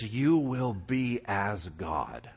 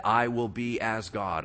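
First: Slow, drawn out, unlike the speaker's own voice; sly serpent promise. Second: "I" pushed out in front of "will be as God"; "I" carries the weight, rest falls away; stress on I. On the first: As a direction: let it hang like a temptation. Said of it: "he's like". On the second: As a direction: lean on "I". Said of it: "Same exact thing that he said". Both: Retold or imitated.

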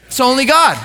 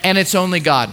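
First: "It's only God" said higher, with weight on "God"; emphatic repeat. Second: Said in the usual way. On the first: Shown as a demonstration. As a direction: repeat it with conviction, landing on "God".

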